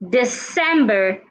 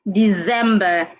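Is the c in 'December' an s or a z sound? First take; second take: s; z. First: The c sounds like s. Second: The c sounds like z. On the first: The speaker calls it right. "The C in that word sounds like S" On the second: The speaker calls it wrong. "not Z"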